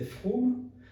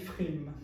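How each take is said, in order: First: It is said with an Alsatian o vowel. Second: It is said with a Polish Yiddish i vowel.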